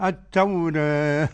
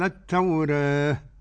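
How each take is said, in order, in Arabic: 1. الحرف الممدود يميل قليلاً نحو صوت الكسرة. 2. الحرف الممدود يميل قليلاً نحو صوت الكسرة.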